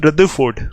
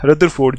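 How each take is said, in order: First: "रदरफोर्ड" the foreign way, as "rudda-ford"; "रदरफोर्ड" with no r before f; silent r. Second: "रदरफोर्ड" as "rudder-ford", middle r sounded; "रदरफोर्ड" with both r sounds before f heard; Indian pronunciation. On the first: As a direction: drop the middle r in "रदरफोर्ड". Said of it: "silent कर दो तो ये बाहर वाली pronunciation". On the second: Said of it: "अगर आर को silent ना करें". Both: Shown as a demonstration.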